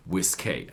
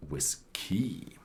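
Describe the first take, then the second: First: Whiskey ending in a clear ay sound, wis-kay; Irish spelling said aloud. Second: Whiskey ending in a short ee, wis-kee; Scottish spelling said aloud. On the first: Whisky expert teaching spelling to viewers, stretching whiskey into wis-kay. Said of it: "That's why they called it of". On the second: Whisky expert contrasting Scotch spelling, saying whiskey as wis-kee. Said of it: "some of the guys were Scottish, and they called it". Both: Shown as a demonstration.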